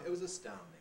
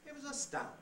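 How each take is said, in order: First: The opening words are pitched moderately high. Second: The opening words are pitched very high. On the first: "perhaps not quite so high" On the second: "I made that very high"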